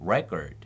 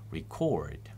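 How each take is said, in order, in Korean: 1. 강세는 첫 번째 음절에 있어요. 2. 강세는 두 번째 음절에 있어요. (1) "첫 번째 음절에 강세가 할 때는 앞에가 똑같이 r, e지만 re로 발음돼서" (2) "동사라서 두 번째 음절에 강세가 있을 때는"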